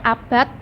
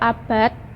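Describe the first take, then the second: First: The final consonant sounds like t. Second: The final consonant sounds like d. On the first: "bunyi T atau D" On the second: "bunyi T atau D"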